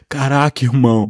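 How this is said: It is spoken in an imitated Carioca accent.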